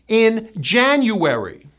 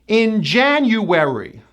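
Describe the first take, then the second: Both takes have the same delivery.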